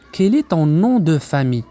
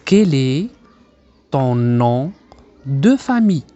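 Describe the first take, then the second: First: Slow but connected teacher's model; measured, linked-up phrase for learners; joined-up model phrase. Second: Slow teacher's model, pausing after each chunk; slow, segmented dictation-like delivery; word-group by word-group. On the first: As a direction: say it in one careful, unbroken run. Teacher then joins the phrase. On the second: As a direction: break the phrase into separate pieces for learners. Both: Shown as a demonstration.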